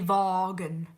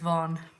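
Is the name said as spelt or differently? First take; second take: as spelt; differently. First: The name is pronounced the way it is spelt. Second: The name is pronounced differently from its spelling. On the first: The speaker calls it wrong. "I pronounced it Timmy Vaughan because that's how it was spelt" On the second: The speaker calls it right. "it wasn't, it was Vaughan"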